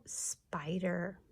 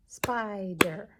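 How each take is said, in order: First: Said in the usual way. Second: "Spider" in two loud, separate beats; syllable by syllable. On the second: Shown as a demonstration. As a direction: clap out "Spider" as SPI, DER. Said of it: "Two syllables in spider".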